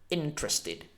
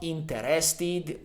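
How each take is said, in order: First: The middle e sound is dropped. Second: The middle e sound is pronounced fully. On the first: The speaker calls it right. "Say interested" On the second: The speaker calls it wrong. "So not interested"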